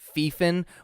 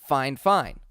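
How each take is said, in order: First: The first syllable sounds like 'fee'. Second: The first syllable sounds like 'fine'. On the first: The speaker calls it wrong. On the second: The speaker calls it right. "I would assume that that is fine fine"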